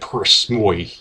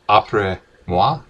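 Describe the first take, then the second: First: It is said with an American pronunciation. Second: It is said with a French-style pronunciation.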